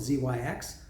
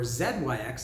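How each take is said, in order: First: The letters are said in a non-Canadian way. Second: The letters are said the Canadian way.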